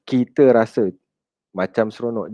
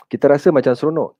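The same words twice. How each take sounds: First: Skeptical, fading repeat of "seronok"; doubting echo. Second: Said in the usual way. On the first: Shown as a demonstration.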